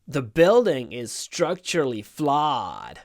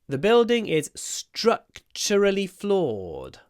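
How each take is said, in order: First: It is said with an American accent. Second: It is said with a British accent.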